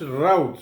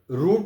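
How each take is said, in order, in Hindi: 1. इस स्वर की ध्वनि out वाले स्वर जैसी है। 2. इस स्वर की ध्वनि boot वाले स्वर जैसी है। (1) "but they pronounce rout" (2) "We pronounce this word root in India"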